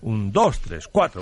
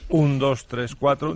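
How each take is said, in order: First: The stress falls on the weak beats. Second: The stress falls on the strong beat. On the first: "te acentúa las partes. Las partes débiles del compás" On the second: "En vez de decir"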